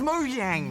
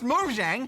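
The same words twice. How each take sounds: First: The name begins with a Y sound. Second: The name begins with a J sound. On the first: The speaker calls it wrong. "you mispronounced Mojang as Mojang" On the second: The speaker calls it right. "it's spelled with a J, not a Y"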